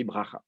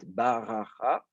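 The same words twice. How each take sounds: First: BRACHA in two syllables, B running straight into R; first vowel dropped. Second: BARACHA slowly in three syllables, with the A after B; first vowel kept. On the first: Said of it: "C'est comme ça qu'on le prononce". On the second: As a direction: draw out "baracha", sounding every vowel. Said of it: "le A qui est sous le bet". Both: Shown as a demonstration.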